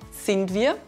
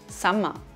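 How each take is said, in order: First: The words are said in full standard form. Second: The words merge into one contracted dialect form. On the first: "statt wir ma sagen" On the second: "wird zu Summer"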